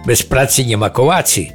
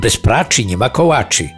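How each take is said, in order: First: The cz in the last word becomes c. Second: The c in the second word becomes cz. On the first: "gdyby tu dołączyć mazurzenie" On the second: "albo też szadzenie"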